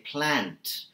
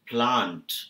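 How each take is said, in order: First: It has a flat American 'a' vowel. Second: It has a broad British-like 'ah' vowel. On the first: "An American would say plant" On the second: "you started with plant"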